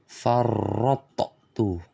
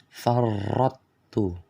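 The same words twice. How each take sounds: First: The t is released with an echoing bounce. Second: The emphatic sound merges fully, leaving no trace. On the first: "mengkolkolahkan huruf to" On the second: "cara bacanya yang salah"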